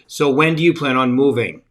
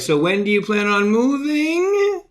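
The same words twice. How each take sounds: First: The pitch falls at the end of the question. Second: The pitch rises at the end of the question. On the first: "your inflection goes down at the end of your question" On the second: "you go up at the end like that"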